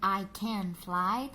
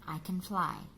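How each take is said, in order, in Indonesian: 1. 'Can' diucapkan penuh dengan vokal yang jelas. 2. 'Can' diucapkan lemah dengan vokal yang tereduksi. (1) "instead of saying" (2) "tapi mereka mengucapkannya dengan"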